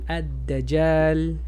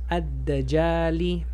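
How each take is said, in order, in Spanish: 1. La palabra termina en la consonante l. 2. La palabra termina en la vocal corta i.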